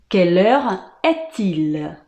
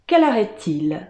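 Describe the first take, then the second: First: Slowly repeated question, pause midway; measured, separated chunks for learners; slow French model. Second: Said in the usual way. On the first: Shown as a demonstration. Teacher repeating how to ask the time, slow and segmented. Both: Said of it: "A gente fala".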